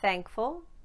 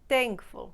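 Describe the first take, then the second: First: The word begins with an unvoiced th sound. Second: The word begins with a t sound. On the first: "no voice produced on the th" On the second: "or a T"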